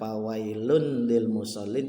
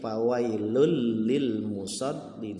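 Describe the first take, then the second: First: An n sound is heard before lil. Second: The n merges into the following l sound. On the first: The speaker calls it wrong. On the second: The speaker calls it right. "Tanwin, ya, bertemu dengan lam, maka dibacanya seperti huruf lam"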